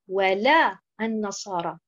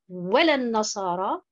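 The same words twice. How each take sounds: First: The stress is on the second syllable, la. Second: The stress is on the first syllable, wa. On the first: It denies that the Christians will be satisfied. The speaker calls it right. "la bonne prononciation, c'est bien sûr de mettre l'accentuation sur حركة اللام" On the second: It affirms that the Christians will be satisfied. The speaker calls it wrong. "si je mets l'accentuation sur harakat al-waw"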